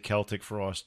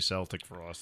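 First: The band name is said the European way. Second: The band name is said the American way. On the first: "Europeans say Celtic Frost" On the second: This is how Americans say it. "Americans say Celtic Frost"

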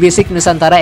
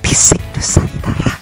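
First: The phrase is spoken in a normal voice. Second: The phrase is spoken in a whisper. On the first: "biasa aja" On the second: "harus bisik-bisik kayak gitu ya"

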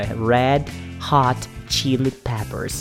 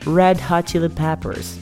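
First: The name is said at a normal, slower pace. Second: The name is said a little more quickly.

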